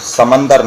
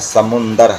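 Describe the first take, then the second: First: The middle syllable has an 'a' vowel. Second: The middle syllable has a 'u' vowel. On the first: The speaker calls it wrong. "लफ्ज़ समंदर नहीं है" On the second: The speaker calls it right. "समुंदर है"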